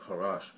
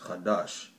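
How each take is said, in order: First: The middle consonant is an R sound. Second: The middle consonant is a D sound. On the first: The speaker calls it wrong. "I said Karash, but it's Kadash" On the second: The speaker calls it right. "but it's Kadash"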